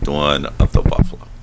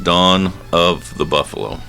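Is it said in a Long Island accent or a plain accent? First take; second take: Long Island; plain. First: It is said in a Long Island accent. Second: It is said in the speaker's plain accent.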